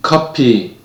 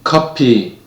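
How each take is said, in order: First: It is said with a Korean loanword pronunciation. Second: It is said with a Korean loanword pronunciation.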